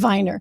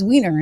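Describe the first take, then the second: First: The name is said with a German pronunciation. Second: The name is said with an English pronunciation. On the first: The speaker calls it wrong. "He must go by the German pronunciation" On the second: The speaker calls it right. "it was Wiener"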